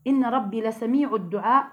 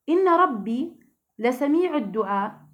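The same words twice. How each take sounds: First: Said in the usual way. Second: Slow, chanted recitation of "إن ربي لسميع الدعاء"; Quran recitation. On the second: Shown as a demonstration. Teacher reciting the verse to her students, slow and chanted. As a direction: intone the verse slowly, tajweed style.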